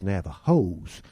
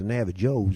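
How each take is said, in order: First: The j is said with an H sound. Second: The j is said with a J sound. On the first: The speaker calls it right. "We pronounce it like an H" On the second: The speaker calls it wrong. "It's not the not the Navajos"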